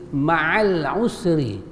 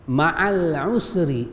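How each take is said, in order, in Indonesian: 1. Kedua kata disambung, dengan 'a' pada 'al' dihilangkan. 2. Kedua kata disambung, dengan 'a' pada 'al' dihilangkan.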